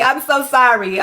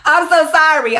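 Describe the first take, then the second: First: Said in the usual way. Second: Mock wail.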